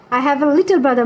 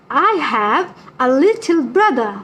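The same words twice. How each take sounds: First: Said in the usual way. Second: Slow, word-by-word sentence reading; drawn-out, careful repeat; slow model reading. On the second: Shown as a demonstration. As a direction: spell it out slowly for the class. Repeats pupil's sentence for the class.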